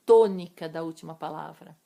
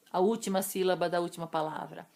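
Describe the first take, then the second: First: "tônica" punched much louder; stress on tônica. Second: Said in the usual way. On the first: Shown as a demonstration. Teacher correcting which syllable counts, stressing "tônica" loudly. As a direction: hit the word "tônica" hard, rest plain. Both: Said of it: "Eu só vou contar até a última sílaba".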